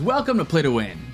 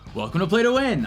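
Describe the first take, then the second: First: The pitch goes down. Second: The pitch does not go down. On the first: The speaker calls it right. "It goes down" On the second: The speaker calls it wrong. "the tone wasn't right"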